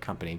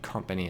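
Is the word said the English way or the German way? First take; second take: English; German. First: It is said like the ordinary English word. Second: It is said like the German word Kompanie. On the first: It is the usual English word. The speaker calls it wrong. "instead of company" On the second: It matches the game's German spelling of the word. The speaker calls it right. "You have to say company ... because they spelled it with a K N I E"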